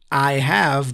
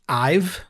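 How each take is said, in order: First: It is said as two full words. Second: It is said as one contracted word.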